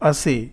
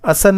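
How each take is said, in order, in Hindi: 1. शब्द एक सादे स्वर की ध्वनि पर खत्म होता है। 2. शब्द एक नासिका ध्वनि पर खत्म होता है। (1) "मैं इसको पढ़ रहा हूं असे" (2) "असन नहीं पढ़ रहा हूं"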